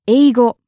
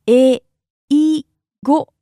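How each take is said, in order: First: Said in the usual way. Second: "Eigo" slowly, each sound held apart; syllable by syllable. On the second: Shown as a demonstration. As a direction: break "Eigo" into three separate beats. Teacher breaks word into syllables.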